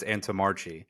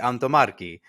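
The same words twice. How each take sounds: First: The name is said with an American pronunciation. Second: The name is said with an Italian pronunciation. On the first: This is how the family says it. The speaker calls it wrong. "I say that it's" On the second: This is how Italians say it should be. The speaker calls it right. "It's supposed to be"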